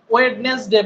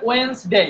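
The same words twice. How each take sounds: First: ওয়েডনেসডে with the first "d" sounded; common mispronunciation. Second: ওয়েডনেসডে as "wens-dei"; silent first D. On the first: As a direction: say ওয়েডনেসডে as "wed-nes-de". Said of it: "এইটা আরো বেশি ভুল করি". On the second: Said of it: "এখানে ডির উচ্চারণ করা যাবে না". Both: Shown as a demonstration.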